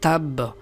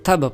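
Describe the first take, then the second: First: The final 'b' is doubled and pressed. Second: The final 'b' is single and light. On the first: The speaker calls it right. "इसको दबा के पढ़ेंगे" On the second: The speaker calls it wrong. "बा के ऊपर शद को नहीं पढ़ते"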